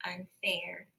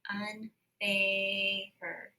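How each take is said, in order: First: Unfair said in a whisper. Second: Unfair with the long A sound drawn out; drawn-out vowel. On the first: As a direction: breathe unfair with no voice. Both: Shown as a demonstration. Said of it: "So I hear that long A sound".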